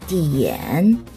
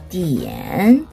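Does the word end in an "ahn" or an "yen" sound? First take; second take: yen; yen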